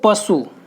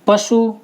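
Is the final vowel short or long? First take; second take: short; long. First: The final u vowel is short. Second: The final u vowel is long. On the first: This is standard Hindi. "यहाँ पे छोटाऊ का मात्रा है" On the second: This is the Khari Boli dialect. "खड़ी बोली में ... बड़ाऊ का मात्रा आ जाएगा"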